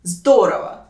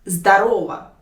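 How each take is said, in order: First: «здорово» with the first O stressed; stress on first syllable. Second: «здорово» with the middle O stressed; stress on second syllable. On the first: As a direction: hit the ZDO in «здорово». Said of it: "put the stress on the first syllable". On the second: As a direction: hit the RO in «здорово». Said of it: "put the stress on the second syllable". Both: Shown as a demonstration.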